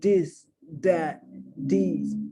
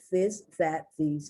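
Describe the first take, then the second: First: The words begin with a hard D sound. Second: The words begin with a soft TH sound. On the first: The speaker calls it wrong. "they say the D sound. So they'll go" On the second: The speaker calls it right. "It's the T H sound"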